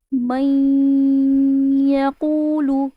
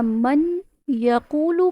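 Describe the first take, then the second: First: من یقولو with the نون merged into the یا and held nasally; with ghunnah. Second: من یقولو with the نون said clearly, no nasal hold, as a wrong example; wrong reading. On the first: Teacher demonstrating the correct merged من یقولو. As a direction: let the نون of من melt into یقولو with a nasal hum. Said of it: "یہ جو من کر کے میں نے پڑھا ہے". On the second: Teacher showing students the incorrect من یقولو. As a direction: read من یقولو the wrong way, نون sounded plainly before یقولو. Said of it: "نہیں۔". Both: Shown as a demonstration.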